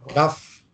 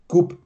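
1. Das Wort endet mit einem f-Laut. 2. Das Wort endet mit einem b-Laut. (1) "Wenn man das jetzt hinschreiben und das Englisch aussprechen, ... kann man ja Gaff aussprechen" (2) "Das hebräische Wort für Körper ist GUB"

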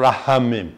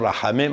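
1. העיצור הראשון הוא לוע, מהגרון. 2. העיצור הראשון הוא הגייה ולרית, מגרדת. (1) "אמרו רחמים" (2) "לא אמרו רחמים"

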